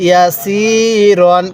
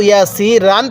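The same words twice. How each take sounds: First: ইয়াসিরন very slow, long সি, rounded "ron" ending. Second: ইয়াসিরান at talking pace with an open "ran" ending; mistaken RAN ending. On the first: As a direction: draw out ইয়াসিরন and end on a heavy "ron", not "ran". (ইয়াসিরন টেনে, শেষে গোল করে "রন") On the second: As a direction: say ইয়াসিরান ending in plain "ran" instead of "ron". (ইয়াসিরান, শেষে ভুল করে খোলা "রান") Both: Shown as a demonstration. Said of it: "কেউ ইয়াসিরান পড়বেন না".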